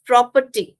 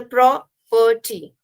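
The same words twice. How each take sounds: First: Said in the usual way. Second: "property" slowly, "pro" stressed, then "perty"; split into syllables. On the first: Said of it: "the pro is stressed". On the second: Shown as a demonstration. Teacher showing the stressed part, word split slowly. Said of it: "the pro is stressed and the perty is".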